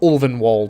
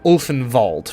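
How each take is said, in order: First: The name is said with a non-German pronunciation. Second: The name is said with a German pronunciation. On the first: The speaker calls it right. "it is pronounced Ulvenwald" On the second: The speaker calls it wrong. "which is how it would be pronounced in German"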